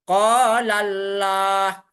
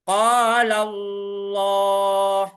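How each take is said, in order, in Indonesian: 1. Huruf L pada Allah itu tipis dan ringan. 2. Huruf L pada Allah itu tebal dan berat. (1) "itu sangat salah sekali" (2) "Itu adalah contoh tafkim"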